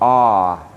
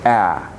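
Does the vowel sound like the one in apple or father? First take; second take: father; apple. First: The vowel sounds like the one in father. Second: The vowel sounds like the one in apple. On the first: This is how South African English says it. "A is for father, because it typically makes the sound ah" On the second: This is how the speaker's home English says it. "A is for apple, and therefore it makes the sound A"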